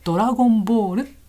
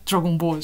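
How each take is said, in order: First: It is said with a Japanese-style pronunciation. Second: It is said with an English-style pronunciation. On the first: "日本語だとドラゴンボール" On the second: "発音が違うと思うんだけど、多分ね、英語だと"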